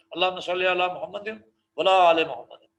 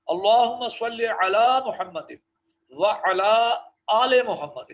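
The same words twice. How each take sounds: First: وعلی آل run together into ولا آل, faster; wrong recitation. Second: اللہم صلی علی محمد slow, with وعلی and آل said apart; correct recitation. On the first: Teacher imitating the common mistake students make. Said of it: "یہ جو نا ولا آل محمد part چھوڑ دیں". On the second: Teacher showing the right way to recite the durood. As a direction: keep وعلی and آل separate, slowly. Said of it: "غور سے سن لیں". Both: Shown as a demonstration.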